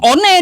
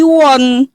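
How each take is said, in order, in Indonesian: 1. Dibaca huruf per huruf, gaya Indonesia. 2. Dilafalkan dengan cara Inggris, seperti won. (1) "bukan one dibaca" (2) "tapi won sesuai dengan kaidah bahasa Inggrisnya"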